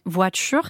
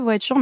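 First: The t has a hissing, affricated release. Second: The t is a plain, clean stop. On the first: "cette façon d'appuyer les T et les D. C'est ce qu'on appelle l'affrication" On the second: "vous ne dites pas voiture"

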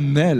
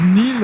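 First: The name is said like 'nel'. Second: The name is said like 'neel'. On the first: The speaker calls it right. "c'est bien Nel" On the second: The speaker calls it wrong. "parfois, on le prononce Nil"

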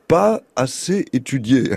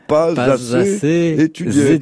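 First: Pas and assez are said without a linking z. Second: Pas links to assez with a z sound. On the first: "pas faire la liaison" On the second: "on peut la faire"

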